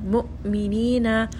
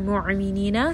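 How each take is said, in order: First: The hamza is a sharp, abrupt stop. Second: The hamza is soft, without a sharp stop. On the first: The speaker calls it right. "Make sure you are abruptly stopping the sound" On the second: The speaker calls it wrong. "We don't want to say"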